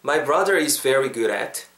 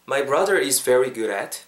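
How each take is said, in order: Both takes have the same delivery.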